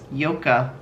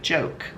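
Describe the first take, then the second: First: It begins with a 'y' sound, two syllables. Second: It begins with a 'j' sound, one syllable. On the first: The speaker calls it right. "but it's Yoka" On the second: The speaker calls it wrong. "for us, would look like joke"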